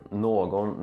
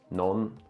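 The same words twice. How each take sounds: First: The word is said in its full form. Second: The word is said in a shortened form.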